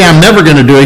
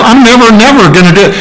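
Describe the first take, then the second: First: Said in the usual way. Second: "never, never" high and quick; emphatic double never. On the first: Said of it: "he doesn't just say". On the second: Shown as a demonstration. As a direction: hit both words in "never, never" with force. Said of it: "which is double never".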